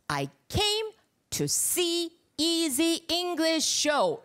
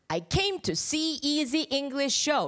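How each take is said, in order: First: The words are said more separately. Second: The words run smoothly linked together.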